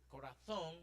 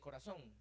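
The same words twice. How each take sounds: First: The z is said like English th. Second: The z is said like an s. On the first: This is how it is said in Spain. "if you go to Madrid or Spain, uh, they do it. Instead of saying" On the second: This is how the speaker's own region says it. "we say corazón, as if it were written with s"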